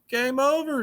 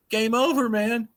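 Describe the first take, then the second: First: High, falling dramatic call; game over exclaim. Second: High excited exclamation; game over exclaim. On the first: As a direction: punch it like an arcade screen. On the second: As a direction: shout it out like a gamer. Doomsday clock hits midnight exclamation. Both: Pretend.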